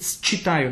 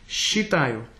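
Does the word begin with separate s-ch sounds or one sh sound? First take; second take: s-ch; sh. First: The word starts with separate s and ch sounds. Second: The word starts with a single sh sound. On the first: The speaker calls it wrong. "You shouldn't sing считаю. No, it's wrong" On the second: The speaker calls it right. "Sh. Just normal sh"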